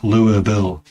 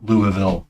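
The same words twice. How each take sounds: First: The name is squeezed into fewer syllables. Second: The name is said with all its syllables. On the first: The speaker calls it wrong. "not Louisville" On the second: The speaker calls it right. "Use more syllables, please"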